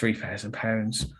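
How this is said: It is said hesitantly, with a subtly changed voice. The speaker feels the price is too high. The speaker calls it wrong. "that voice where you kind of subtly change a little bit"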